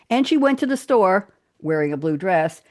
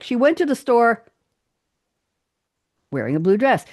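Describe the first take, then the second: First: It is said smoothly without breaks. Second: It is said with dramatic, halting pauses.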